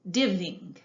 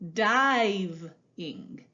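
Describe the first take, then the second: First: The first vowel is a short i, like div. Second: The first vowel is a long i, like dive. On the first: The speaker calls it wrong. "d, iv, div, ing, diving. That doesn't sound quite right" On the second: The speaker calls it right. "an invisible magic E that can give its voice to the I"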